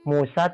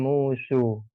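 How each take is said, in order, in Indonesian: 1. Vokal akhirnya adalah a terbuka yang jelas. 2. Vokal akhirnya condong ke bunyi e. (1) "kalau istilahnya kami membaca itu Musa" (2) "dibaca dengan"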